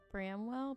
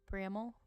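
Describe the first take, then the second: First: The name is said with a full second syllable. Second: The name is said with a reduced second syllable. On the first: This is how an outsider would say it. "I want to say I live in Bramwell" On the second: This is how locals say it. "the natives call it Bramall"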